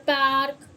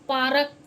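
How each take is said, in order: Both takes have the same delivery.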